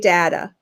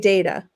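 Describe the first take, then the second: First: It is pronounced the East Coast way. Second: It is pronounced the Midwest way. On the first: "on the East Coast you say data" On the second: "Midwest you say data"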